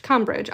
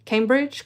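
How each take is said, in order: First: "Cambridge" with a short "cam" vowel, falling; trial pronunciation. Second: "Cambridge" with a long "came" vowel, questioning; trial pronunciation. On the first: Testing the town's name, "Cambridge" as CAM-bridge. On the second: Unsure of the town's name, "Cambridge" as CAME-bridge. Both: Shown as a demonstration.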